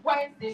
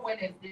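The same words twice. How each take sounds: First: "Wednesday" in two syllables, WENZ-day; correct pronunciation. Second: "Wednesday" in three syllables, WED-nes-day; wrong pronunciation. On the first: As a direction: silent first d in "Wednesday". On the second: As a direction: sound every part of "Wednesday". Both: Shown as a demonstration. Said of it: "not Wednesday".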